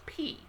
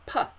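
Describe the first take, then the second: First: The P is said as its letter name. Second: The P is a bare sound without a vowel. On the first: "it's P because it's standing by itself" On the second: "just a flat, no vowel attached"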